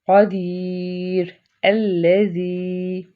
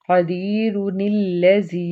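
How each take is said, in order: First: There is a stop after the first word. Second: The words are joined without a stop.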